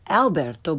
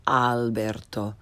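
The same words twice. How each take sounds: First: "Alberto" starting with English short a, as in cat; learner's mispronunciation. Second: "Alberto" with open Italian ah, lower; correct Italian pronunciation. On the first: Teacher shows beginners' mistake, "Alberto" with English short a. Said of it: "first the way most people". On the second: Teacher corrects beginners, "Alberto" with open Italian ah. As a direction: start "Alberto" with a as in father. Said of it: "follow it with the correct pronunciation". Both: Shown as a demonstration.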